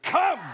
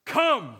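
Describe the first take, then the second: First: Much higher, louder shout; shouted with full force. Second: A loud, commanding call. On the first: Shown as a demonstration. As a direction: call it out like you really mean it. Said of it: "Oh, like you mean it". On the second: Acted. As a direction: call it out loudly like a heavenly creature. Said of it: "say in a loud voice".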